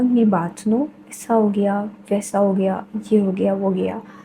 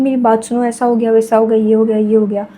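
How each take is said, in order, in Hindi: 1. यह शांत ठहराव के साथ धीरे बोला गया है। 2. यह बिना ठहराव के तेज़ी से बोला गया है।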